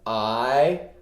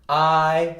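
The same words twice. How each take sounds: First: The pitch rises from mid to high. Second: The pitch stays high and level. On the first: "Second tone" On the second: "So on first tone, it's like this"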